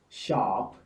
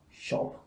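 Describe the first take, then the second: First: The vowel is an American long open ah. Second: The vowel is a short rounded British o. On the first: "So here we have O as in God" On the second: "You would have shop"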